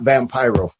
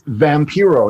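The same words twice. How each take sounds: First: The name is said with English pronunciation. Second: The name is said with Spanish pronunciation. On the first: The speaker calls it wrong. "nobody can say it right" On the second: The speaker calls it right. "it's Vampiro, not Vampiro. ... It's vampire in Spanish"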